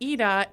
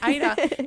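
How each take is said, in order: First: The name has its Swedish pronunciation. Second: The name has an English-style pronunciation. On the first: The speaker calls it right. "it's Ida" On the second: The speaker calls it wrong. "I was pronouncing it wrong. I was saying Ida"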